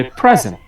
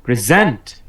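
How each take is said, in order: First: present stressed on the first syllable; noun stress. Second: present stressed on the second syllable; verb stress. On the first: Teacher showing the noun's pronunciation, first syllable stressed. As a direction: say present as a noun, PRE strong. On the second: Teacher showing the verb's pronunciation, last syllable stressed. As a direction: say present as a verb, ZENT strong. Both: Shown as a demonstration. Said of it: "তখন উচ্চারণ হবে".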